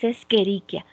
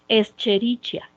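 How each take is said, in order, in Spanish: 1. La 'ch' se pronuncia como una k. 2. La 'ch' se pronuncia como la 'ch' en 'chair'. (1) "es Escherichia. La C y la H juntas se pronuncian como una K" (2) "No se pronuncia Escherichia"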